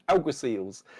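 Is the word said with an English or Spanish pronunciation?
English. It is said with an English pronunciation. "as they are pronounced in England"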